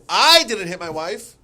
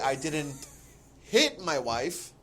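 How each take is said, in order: First: The word I carries the main stress. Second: The word hit carries the main stress. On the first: Someone else did it. "it means what you said. Someone else did" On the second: Something else was done to her. "maybe you did something else to your wife"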